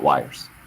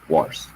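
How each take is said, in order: First: The ending sounds like "wires". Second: The ending sounds like "wars". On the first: The speaker calls it wrong. "not Wires" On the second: The speaker calls it right.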